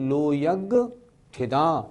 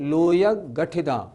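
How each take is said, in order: First: The break falls after the 'ga' syllable. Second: The break falls before the 'ga' syllable. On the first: The speaker calls it right. "लोयग गठिदा नहीं, लोयग ठिदा" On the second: The speaker calls it wrong. "कुछ लोग कैसे बोलते हैं? ... वो उच्चारण ठीक नहीं।"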